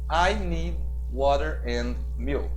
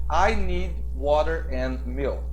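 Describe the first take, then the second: Both takes have the same delivery.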